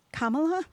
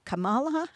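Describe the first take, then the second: First: Kamala stressed on the first syllable, KAH-muh-luh; first pronunciation option. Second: Kamala stressed on the middle syllable, kuh-MAH-luh; alternative pronunciation. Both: Shown as a demonstration. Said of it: "How does she pronounce her name".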